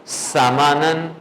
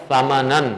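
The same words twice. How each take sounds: First: سامانن with a long hissing s; drawn-out سامانن opening on a sharp sibilant; teacher's misreading. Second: Imitating the student's correct سامانن; student's reading. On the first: Shown as a demonstration. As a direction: whistle the first consonant of سامانن. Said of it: "اور میں نے پڑھا ہے". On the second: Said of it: "جو میں نے سنا ہے آپ نے پڑھا ہے".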